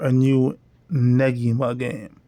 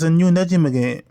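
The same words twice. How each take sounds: First: The G in Negima is hard. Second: The G in Negima is soft.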